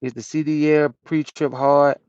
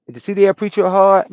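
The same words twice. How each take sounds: First: Said in the usual way. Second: Higher and louder, hitting D; loud repeat. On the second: Real, not acted. Trucker repeating the question to chat, loud and high. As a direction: repeat it out to the stream.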